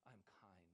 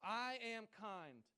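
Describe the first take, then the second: First: Soft, low little echo "I'm kind"; daughter repeating. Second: Loud, high, very slow "I am kind"; dad's slow affirmation. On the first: Retold or imitated. Little daughter echoing her dad at bedtime, soft and quiet. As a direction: repeat it back quietly like a small child. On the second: Shown as a demonstration. Father leading his daughter's bedtime affirmation, slow and loud. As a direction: lead it word by word for her to repeat. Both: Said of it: "she repeats after me".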